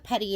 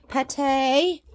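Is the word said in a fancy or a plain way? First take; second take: plain; fancy. First: It is said in an ordinary, plain way. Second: It is said in a posh, fancy-sounding way.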